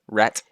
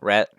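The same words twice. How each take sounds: First: The final T is strongly and clearly released. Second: The final T is soft and barely released. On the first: A British speaker is attempting an American accent. The speaker calls it wrong. "they say the T and rat like really pronounce like rat" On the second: This is how Americans actually say it. The speaker calls it right. "Americans they go rat"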